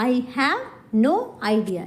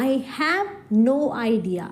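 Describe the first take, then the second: No difference in how they are said.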